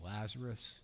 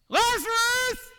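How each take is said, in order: First: It is said flatly with no energy. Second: It is called out loudly with energy.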